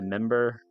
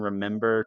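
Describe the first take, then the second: First: The word is said without its first syllable. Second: The word is said with all three syllables. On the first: "Sometimes I shorten remember to member" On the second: "the way I say remember"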